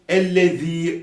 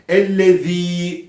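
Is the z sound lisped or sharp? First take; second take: lisped; lisped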